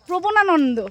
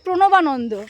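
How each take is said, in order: First: The b sound comes before the n sound. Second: The n sound comes before the b sound. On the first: The speaker calls it wrong. "ও বলবে" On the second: The speaker calls it right. "ওর স্কুলের নাম হচ্ছে প্রণবানন্দ"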